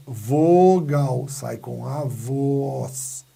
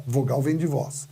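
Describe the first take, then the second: First: "Vogal" e "voz" esticados, bem devagar; vogais alongadas. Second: Said in the usual way. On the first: Shown as a demonstration. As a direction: stretch the vowels in "Vogal" and "voz". (vogais sustentadas em "Vogal" e "voz") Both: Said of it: "saem direto com a voz".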